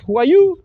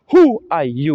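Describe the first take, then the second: First: Who are you, climbing high on you; Who are you, loud with a rising end; wrong rising intonation. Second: Who are you, loud on Who, dropping on you; Who are you with a falling end; falling intonation. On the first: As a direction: lift you sharply at the end. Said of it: "We don't ask". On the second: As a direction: punch Who, let you fall. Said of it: "It's a falling intonation". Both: Shown as a demonstration.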